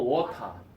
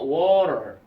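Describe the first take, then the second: First: It is said in a British accent. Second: It is said in an American accent. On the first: "영국식 영어 ... 알 발음 안 됨. 끝머리에" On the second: "미국식 영어"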